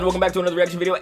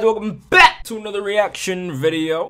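First: It is spoken in the speaker's plain everyday accent. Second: It is spoken in a put-on Southern US accent.

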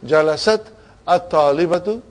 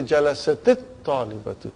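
First: The two words are joined without an added vowel. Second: The two words are joined with an added 'i' vowel. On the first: The speaker calls it wrong. "Instead of saying" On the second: The speaker calls it right. "we say"

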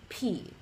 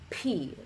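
First: The consonant is said with a strong puff of air. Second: The consonant is said with a strong puff of air.

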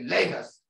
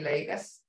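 First: It is said in a stern tone. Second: It is said in a nice, gentle tone.

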